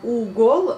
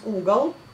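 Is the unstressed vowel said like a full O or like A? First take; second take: full O; like A. First: The second vowel is said as a full O. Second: The second vowel is said like A. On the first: "on écrit le угол" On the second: "mais on prononce угол"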